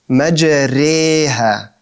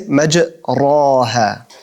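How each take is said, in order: First: The vowel after r sounds like e. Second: The vowel after r sounds like a. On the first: "But this is in between, exactly in between" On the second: "if I'm to say an alif"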